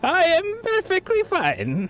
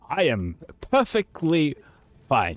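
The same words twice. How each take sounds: First: It is said in a raised voice. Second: It is said in a natural voice.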